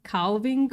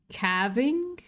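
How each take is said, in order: First: Calving with an open "ah" and sounded l; broad-a calving. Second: Calving with a flat "a" as in cat; short-a calving. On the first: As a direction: say calving as "KAHL-ving", questioning rise. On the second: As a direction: say calving as "KAV-ing", questioning rise. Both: Shown as a demonstration. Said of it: "however you say that in my accent".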